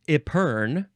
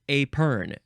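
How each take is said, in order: First: The first syllable has an 'ih' vowel. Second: The first syllable has an 'ay' vowel. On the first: "first syllable is pronounced I or A" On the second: "first syllable is pronounced I or A"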